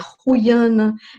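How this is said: The name is said with Dutch pronunciation. "em holandês"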